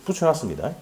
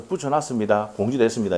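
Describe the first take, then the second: First: Said in the usual way. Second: A hint of a dry, matter-of-fact answer; lightly voiced prim official answer; curt official reply. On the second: Teacher mimics his curt reply to a complaining student, lightly dry. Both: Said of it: "이렇게 하잖아".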